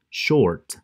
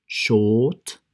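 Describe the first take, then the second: First: SHORT with the R sounded; pronounced R. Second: SHORT with a long drawn O and no R; long O, silent R. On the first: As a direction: say short with an audible English "er" R. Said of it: "Y pronunciamos la er". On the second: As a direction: say "short" as "shoot"-long "shawt", R dropped. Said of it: "con una O bien larga". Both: Shown as a demonstration.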